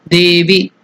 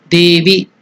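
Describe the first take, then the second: The two takes are said the same way.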